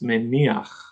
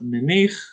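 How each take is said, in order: First: An 'a' vowel comes before the final 'ch'. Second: The word ends with a plain 'ich' sound. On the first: The speaker calls it right. "It's meniach" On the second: The speaker calls it wrong. "It's not menich"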